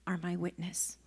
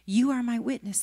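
First: Hushed breathy whisper of are my witness. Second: Said in the usual way. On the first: Shown as a demonstration. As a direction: breathe the words, no voice. Preacher repeats the line softly.

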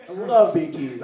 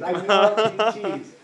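First: Said in the usual way. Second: "I love B Ts" drawn out slowly the second time; stretched repeat. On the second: Shown as a demonstration. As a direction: say "I love B Ts" again, slow and savoring.

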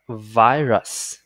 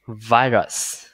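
First: Virus repeated as VY-rus; repeat for students. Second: Virus said as VY-rus, English style; English pronunciation. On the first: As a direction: say virus again, slow and clear. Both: Shown as a demonstration. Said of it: "từ này chúng ta sẽ đọc là".

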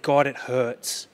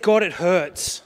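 First: Slow, pained plea, drawn out; slow broken lament. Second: Louder cry of pain to God. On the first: Grieving father telling God it hurts, slow and broken. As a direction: let the words ache slowly. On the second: Father crying out to God in the hospital, loud. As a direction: call out the hurt to heaven. Preacher quoting his prayer to God. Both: Retold or imitated.

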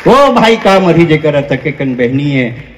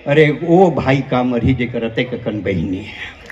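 First: Full-voiced, low recitation; low-pitched line at full volume; punchline repeated. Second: Low, soft aside; softly spoken, low delivery; understated punchline. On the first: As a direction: repeat it firmly to the whole crowd. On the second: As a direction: drop the voice and toss the line away. Punchline, first take thrown away. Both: Real, not acted.

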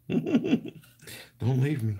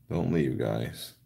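First: Very high, laughing whine on "Don't"; mock pleading squeak. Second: Said in the usual way. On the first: [name] joking with viewers about separation anxiety, squeaky plea. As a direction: squeak it like a needy child. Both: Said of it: "I have separation anxiety".

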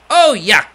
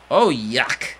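First: Oh, yuck! said louder with disgust. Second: Said in the usual way. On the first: Shown as a demonstration. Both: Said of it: "Let me say that again".

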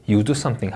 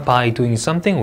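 First: 'you do something' dropping at the end; falling intonation. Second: 'By doing something' slowly, lifting at the end; rising intonation. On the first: Teacher modelling the main clause, falling tune. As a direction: close 'something' downward. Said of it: "하고 내려 읽습니다". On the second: Teacher modelling the opening phrase, rising tune. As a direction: keep 'something' up, sentence unfinished. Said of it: "올려 읽고". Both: Shown as a demonstration.

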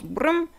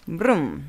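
First: "Brum" high with rising pitch; playful high "Brum" sliding up. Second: "Brum" low with falling pitch; playful "Brum" sliding down. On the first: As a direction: make "Brum" a quick upward engine noise. Sound effect, rising take. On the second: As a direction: make "Brum" a dropping engine noise. Sound effect, falling take. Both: Pretend.

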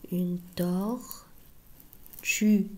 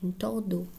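First: "Une tortue" said very slowly, each syllable drawn out; slow teaching demo. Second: Said in the usual way. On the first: Shown as a demonstration. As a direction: stretch "Une tortue" slowly for children to copy. ("Une tortue" ببطء شديد مع مد كل مقطع)

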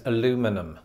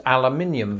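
First: "aluminum" said the American way, uh-LOO-mi-num; American pronunciation. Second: "aluminium" said the British way, al-yoo-MIN-ee-um; British pronunciation. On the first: British host contrasting word forms, American "aluminum". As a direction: stress LOO in "aluminum", with no ee before the ending. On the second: British host contrasting word forms, British "aluminium". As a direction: stress MIN in "aluminium", with an ee-um ending. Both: Shown as a demonstration. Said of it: "aluminium versus aluminum".

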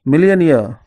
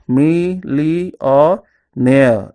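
First: Said in the usual way. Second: "me, li, or near" as separate drawn-out beats; split into syllables. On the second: Shown as a demonstration. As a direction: spell out millionaire by sound, "me, li, or near". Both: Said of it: "divide the word into syllables".

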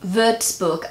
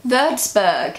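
First: Würzburg with ü and an ending like "book"; German-style pronunciation. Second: Würzburg ending in an English -berg with hard g; English-style pronunciation. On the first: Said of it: "and the German way". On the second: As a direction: anglicise Würzburg, finishing on -berg. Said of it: "this is how you would pronounce it in English". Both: Shown as a demonstration.

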